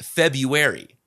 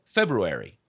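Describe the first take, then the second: First: The word is said in its reduced form. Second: The word is said fully, as it looks. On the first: "it's actually pronounced February" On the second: "I have always said February, how it looks"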